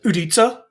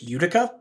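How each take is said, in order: First: The word is said the Czech way. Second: The word is said the North American way. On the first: "if you were a Czech engineer, you would pronounce it Udica" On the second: "in uh, North America, you probably pronounce this Utica"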